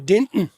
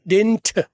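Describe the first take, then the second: First: The final t is skipped. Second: The final t is clearly released. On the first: "तो टी skip कर दिया" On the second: "टी blast कर दी जाए"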